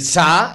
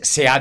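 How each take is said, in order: First: The two words merge into one syllable. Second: The two words are said as separate syllables. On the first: The speaker calls it wrong. "una pronunciación que podríamos denominar relajada" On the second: The speaker calls it right. "debe decir ... y se ha dicho"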